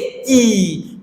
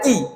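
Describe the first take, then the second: First: The vowel is long and deeper. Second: The vowel is short and plain. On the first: "म्हणजे sound थोडा deep येतो" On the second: "हे काय फक्त की"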